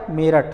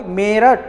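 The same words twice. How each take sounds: First: Said in the usual way. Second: Meerut with the ए after म stretched and stressed; emphatic long ए in Meerut; stress on the first vowel. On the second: Shown as a demonstration. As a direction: lean on the first syllable of Meerut, drawing out its ए. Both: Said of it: "इस पर आप बल दे रहे हो".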